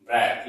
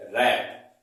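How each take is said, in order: First: रैप wrongly begun with a W sound; wrong pronunciation. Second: रैप begun on a plain R; correct pronunciation. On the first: Teacher warns students what not to say, रैप with W sounded. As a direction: sound the silent W before रैप. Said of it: "ये गलत हो जाएगा". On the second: Teacher models the word for students, रैप with silent W. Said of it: "इसको पढ़ेंगे रैप". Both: Shown as a demonstration.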